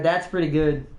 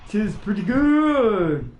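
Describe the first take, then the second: First: Said in the usual way. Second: Slow, stretched last word; jokey elongated repeat; playfully drawn out. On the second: Pretend. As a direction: linger on "good" in a mock-approving way.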